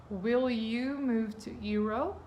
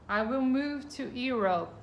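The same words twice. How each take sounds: First: Slow demo with "Europe" lifted at the end; teacher-style yes-no question rising at the close; rising question tune. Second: Said in the usual way. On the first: Shown as a demonstration. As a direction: model the question, pitch going up on "Europe". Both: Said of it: "eles estão mudando de lugar aí com o sujeito".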